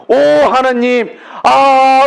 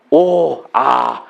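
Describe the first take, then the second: First: "오, 하나님, 아" slow and louder, higher, overcome; a preacher acting out a moved prayer of thanks; fervent thanks. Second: Low, quiet wondering "오, 아"; hushed marvel at a blessing; soft awed sigh. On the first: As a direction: cry out "오, 하나님" in grateful awe. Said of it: "이렇게 여러분이". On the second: Shown as a demonstration. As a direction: breathe out "오, 아" softly in awe. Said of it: "한번 해볼까요?".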